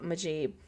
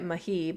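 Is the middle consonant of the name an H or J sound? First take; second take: J; H. First: The middle consonant is a J sound. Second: The middle consonant is a soft H sound. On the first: The speaker calls it wrong. "I think I said it wrong" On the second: The speaker calls it right. "you probably say it"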